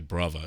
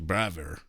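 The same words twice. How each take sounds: First: It is said in a British accent. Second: It is said in an American accent. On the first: "I would say brother" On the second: "American English"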